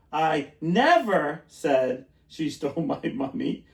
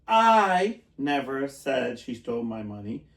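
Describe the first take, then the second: First: Never leaned on, slow and deliberate; slow demo, weight on never; stress on NEVER. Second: I punched, slow and deliberate; slow demo with the weight on I; stress on I. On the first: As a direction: push the word never hard. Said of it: "depends where the word is stressed". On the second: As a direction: hit the word I, then ease off. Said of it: "for example". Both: Shown as a demonstration.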